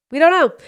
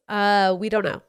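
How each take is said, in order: First: Pitched way up and louder, fed-up cry; exasperated outburst. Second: Said in the usual way. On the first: Retold or imitated. Parent answering kids nagging for presents, exasperated outburst. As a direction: throw up your hands and blurt it out.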